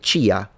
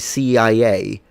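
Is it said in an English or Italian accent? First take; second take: Italian; English. First: The letters are said with Italian pronunciation. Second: The letters are said with English pronunciation. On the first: The speaker calls it wrong. "They say C I A. ... the other one is pronounced the Italian way" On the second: The speaker calls it right. "they don't say C I A"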